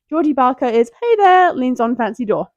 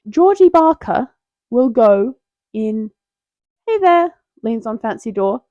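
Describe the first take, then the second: First: It is said in a non-British accent. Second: It is said in a British accent.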